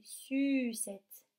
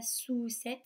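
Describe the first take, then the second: First: "sucette" with a long, tight French u; correct U vowel. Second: "sous-cette" with oo where French u belongs; wrong OU vowel. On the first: Teacher corrects for children, "sucette" with drawn-out French u. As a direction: stretch the u in "sucette", never oo. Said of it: "c'est sucette". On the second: Teacher rejects the wrong word for children, "sous-cette" with drawn-out oo. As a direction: hold a rounded back oo in "sous-cette". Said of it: "Ce n'est pas". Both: Shown as a demonstration.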